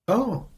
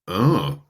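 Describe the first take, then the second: First: The 'oh' sounds curious and interested. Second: The 'oh' sounds critical and disapproving. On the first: The listener is open and interested. "that sounds a little bit like maybe curiosity" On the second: The listener is judging it negatively. "now we're actually getting critical"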